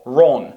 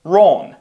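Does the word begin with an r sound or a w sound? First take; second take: r sound; r sound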